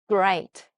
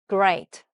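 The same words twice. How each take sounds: The two takes are said the same way.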